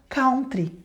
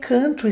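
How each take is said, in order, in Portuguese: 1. É pronunciado do jeito do português brasileiro. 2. É pronunciado do jeito nativo do inglês. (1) "todo mundo no Brasil, falar country" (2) "E eu falei country"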